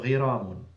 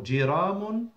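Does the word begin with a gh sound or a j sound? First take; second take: gh sound; j sound. First: The word begins with a gh sound. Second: The word begins with a j sound.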